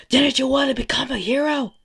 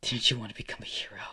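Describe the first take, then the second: First: High, very loud angry yell; taunting shout. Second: Said in the usual way. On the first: Acted. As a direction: yell it while pounding the ground. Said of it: "he's just pounding on the ground saying".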